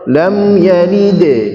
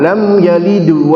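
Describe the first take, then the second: First: The final bounce sounds like a light e. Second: The final bounce sounds like a u. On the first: The speaker calls it right. "Yang betul e, lam yalide" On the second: The speaker calls it wrong. "itu tidak benar"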